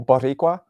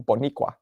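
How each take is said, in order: First: The middle consonant is a rolled R. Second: The middle consonant is an N sound. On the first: The speaker calls it right. "We couldn't go Boricua and roll the R" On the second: The speaker calls it wrong. "We'd go Boniqua"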